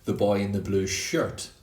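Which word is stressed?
shirt. The word shirt carries the main stress. It is not a different piece of clothing. "not the boy in the blue shorts"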